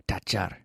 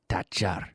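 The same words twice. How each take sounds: Both takes have the same delivery.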